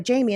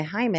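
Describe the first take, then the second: First: "Jamie" said the English way, JAY-mee; English name. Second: "Jaime" said the Spanish way, HI-meh, with a breathy h; Spanish name reading. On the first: Retold or imitated. The caller correcting her name, "Jamie" in English. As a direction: give "Jamie" the plain English J and long a. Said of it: "What's your name?". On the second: Shown as a demonstration. Telling a podcast host how she misread the name, "Jaime" in Spanish. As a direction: read "Jaime" as the Spanish male name, h sound first. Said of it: "And Jaime is, like, masculine form".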